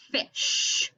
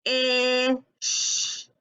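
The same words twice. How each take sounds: First: Said in the usual way. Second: "Ish" with held short i, then long sh; stretched sounds. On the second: Shown as a demonstration. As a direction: draw out each sound of "Ish". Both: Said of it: "stretching the word out".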